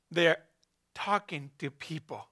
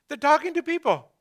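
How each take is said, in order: First: Soft trailing take. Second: "talking" lifted higher, said firmly; stress on talking. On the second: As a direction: lean into "talking" as the key word. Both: Shown as a demonstration.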